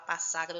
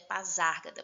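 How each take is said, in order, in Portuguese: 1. A consoante depois da primeira vogal soa como s. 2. A consoante depois da primeira vogal soa como z. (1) "De tanto costume o povo falar Passágada, eu também peguei" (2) "Mas é Pasárgada, porque aqui a gente tem o S entre duas vogais. Então, faz esse som, z"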